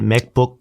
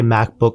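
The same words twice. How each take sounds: First: It is said with Korean pronunciation. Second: It is said with English pronunciation. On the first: "Korea changes it, changes it up a little bit" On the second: "I'll say MacBook"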